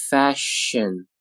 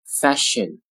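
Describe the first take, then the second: First: "Fashion" slowly, syllables held; slow careful "Fashion"; drawn-out model. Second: Said in the usual way. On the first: Shown as a demonstration. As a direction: stretch "Fashion" out for learners. Teacher models word slowly, then normally.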